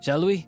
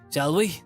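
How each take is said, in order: First: It is said in a put-on character voice. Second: It is said in a natural voice.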